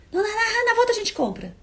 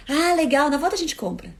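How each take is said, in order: First: High, breezy brush-off, not even looking; dismissive brush-off. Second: A touch of fake cheer, tossed off; mock cheerful brush-off. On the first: Retold or imitated. To a friend who wants coffee: dismissive high brush-off. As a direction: wave it away lightly in a high sing-song. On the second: Partner answering a coffee request: lightly mocking cheerful tone. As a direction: say it breezily as if it costs nothing. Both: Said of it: "Ele nem olhou pra mim".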